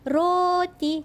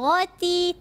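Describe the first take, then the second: First: The r sound is rolled with the tongue. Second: The r sound is not rolled. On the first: The speaker calls it right. "Kita kena gulungkan lidah" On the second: The speaker calls it wrong. "Kita tak sebut roti"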